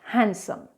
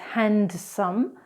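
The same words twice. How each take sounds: First: The d sound is silent. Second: The d sound is pronounced. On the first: The speaker calls it right. "it's actually pronounced handsome" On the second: The speaker calls it wrong. "incorrectly is handsome"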